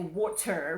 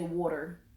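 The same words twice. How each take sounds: First: The middle consonant is a plain T sound. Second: The middle consonant sounds like a D. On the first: This is how people outside Philly say it. "we don't never say water" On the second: This is how people in Philly say it. "We put that D in there"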